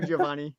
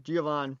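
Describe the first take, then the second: First: "Giovanni" with a clear final "ee" sound. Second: "Giovanni" ending on the n, no final I sound; final I dropped. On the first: Shown as a demonstration. Corrected by his co-host, he carefully says "Giovanni" with the I. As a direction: say "Giovanni" in full, ending "-nee". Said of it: "No, it's Giovanni". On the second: Real, not acted. Asked by his friend why he says "Giovanni" without the I. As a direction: say "Giovanni" as "Giovann", clipping the last vowel. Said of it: "Are you ever gonna say the I in Giovanni?".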